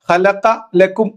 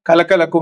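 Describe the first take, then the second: First: The first word begins with an h sound. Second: The first word begins with a k sound. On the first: The speaker calls it right. "ഖുർആനില് ഹലക്ക ലക്കും എന്നതിന്" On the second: The speaker calls it wrong. "പറയാ കലക്ക ലക്കും എന്നാണ്"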